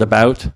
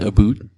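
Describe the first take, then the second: First: The vowel is the standard American one. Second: The vowel is shifted toward a Canadian-like sound. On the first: "the word about" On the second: "it becomes a very Canadian aboot"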